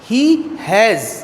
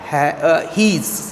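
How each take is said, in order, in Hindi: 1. दोनों शब्द पूरे और अलग-अलग बोले जाते हैं। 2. दोनों शब्द मिलकर एक छोटा अक्षर बन जाते हैं।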